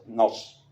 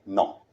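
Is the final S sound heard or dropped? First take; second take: heard; dropped. First: The final S sound is clearly pronounced. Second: The final S sound is dropped entirely. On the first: The speaker calls it right. "Tiene que sonar la S del nos" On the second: The speaker calls it wrong. "Y que no suene no"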